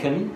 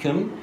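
First: The vowel is cut short and very light. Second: The vowel is cut short and very light.

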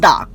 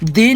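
First: The word is said with a short 'uh' vowel. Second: The word is said with a long 'ee' vowel. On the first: It comes before a word starting with a consonant. "দি নাকি দা কোনটা সঠিক" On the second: It comes before a word starting with a vowel. "দি নাকি দা কোনটা সঠিক"

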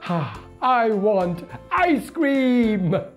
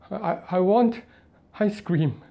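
First: It sounds happy. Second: It sounds scared.

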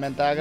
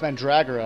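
First: There is no r sound after the d. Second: There is an r sound after the d. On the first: The speaker calls it wrong. "I've been saying it wrong for my whole life" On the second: The speaker calls it right. "it's Mandragora"

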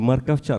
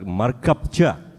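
First: The consonant before 'cha' is a clear v. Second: The consonant before 'cha' is a p. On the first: The speaker calls it wrong. "Тут нельзя очень так четко выговаривать «в». Не морковча" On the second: The speaker calls it right.

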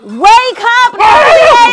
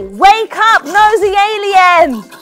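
First: It is shouted at its very loudest. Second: It is shouted more loudly than before.

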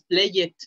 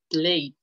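First: The ending is said as an extra syllable. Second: Only the final consonant of the ending sounds. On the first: The speaker calls it wrong. "No es play it" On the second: The speaker calls it right. "Nada más suena la última letra"

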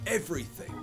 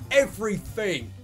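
First: The consonant before -ing is a th sound. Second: The consonant before -ing is an f sound.

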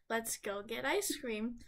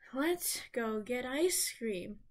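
First: It starts plainly, without a deep breath first. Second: It starts gently after a deep breath.

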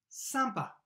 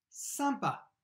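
No difference in how they are said.

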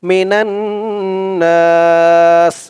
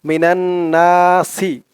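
First: The phrase ends on a bare s sound. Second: The phrase ends with a short i vowel. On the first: The reader stops here. "যদি থামেন" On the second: The reader continues without stopping. "আর না থামলে"

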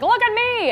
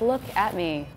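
First: It is said in a loud, showy way. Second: It is said in a quiet, understated way.

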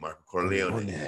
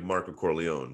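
First: The name is said with a Spanish accent. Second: The name is said with an American accent. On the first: "in Mexico it was Marco Corleone with the A" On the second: "If I said like American"

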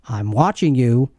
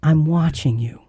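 First: It is said in a menacing, suspicious tone. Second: It is said in a warm, loving tone.

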